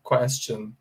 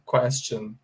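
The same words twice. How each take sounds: First: The middle consonant is a 'ch' sound. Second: The middle consonant is a 'ch' sound.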